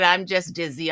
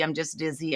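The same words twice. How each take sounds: First: Said in the usual way. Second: "I'm just dizzy" echoed much softer, fading away; faint weak repeat. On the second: Retold or imitated. Mother to daughter, repeating herself in a faint fading voice. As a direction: let the repeat die out, drained and woozy.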